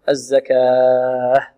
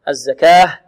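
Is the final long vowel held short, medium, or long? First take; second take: long; short. First: The long vowel is held for six counts. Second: The long vowel is held for two counts. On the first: "وست ماذا حركات" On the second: "اثنان"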